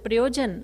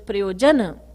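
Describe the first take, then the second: First: The word ends on a consonant, no final vowel. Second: The word ends with a short final vowel. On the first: This is how it would be said in Hindi. The speaker calls it wrong. "In Hindi, you would pronounce it Priyojan" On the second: This is how it is said in Sanskrit. The speaker calls it right. "but it's Sanskrit, so it's Priyojana"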